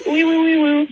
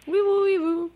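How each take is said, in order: First: Panicked siren sound effect; mock siren wee woo; siren noise. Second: Quiet echoed siren noise; soft siren echo. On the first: Real, not acted. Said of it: "I sort of panicked at the end". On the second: Retold or imitated. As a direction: gently repeat the siren. Host echoes caller's siren.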